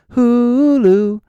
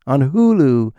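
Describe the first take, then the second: First: HULU drawn out high and loud; exaggerated plug. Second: Said in the usual way. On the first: Comic plugging Hulu, exaggerated high loud call. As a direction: stretch the first syllable of HULU, pitched way up. Exaggerated repeat of the streaming name.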